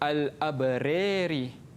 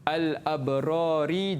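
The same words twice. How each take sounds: First: The long a before ra leans toward e. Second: The long a before ra sounds plain.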